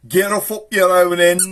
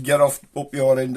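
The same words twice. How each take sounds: First: High, loud mock neighbourly yell; cross grown-up shout. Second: Said in the usual way. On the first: Grown-up clearing kids off the street, loud cross shout. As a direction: shoo the kids off at full volume. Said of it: "one of the grown-ups would come out".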